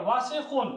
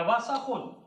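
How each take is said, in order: First: "वासिखुन" with a short i after the s; alternative vowel. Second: "वासखुन" with an a after the s; alternative vowel. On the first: Teacher giving students the first reading, "वासिखुन" with si. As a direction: pronounce "वासिखुन" with si in the middle. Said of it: "या वासखुन". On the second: Teacher giving students the other reading, "वासखुन" with sa. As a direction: pronounce "वासखुन" as wa-sa-khun. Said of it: "वासिखुन और वासाखुन दोनों जाए". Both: Shown as a demonstration.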